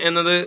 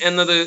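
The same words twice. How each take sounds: No difference in how they are said.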